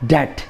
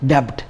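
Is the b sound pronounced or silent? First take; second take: silent; pronounced. First: The b sound is silent. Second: The b sound is pronounced. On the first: The speaker calls it right. "B is again silent, and we should call this debt" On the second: The speaker calls it wrong. "not debt"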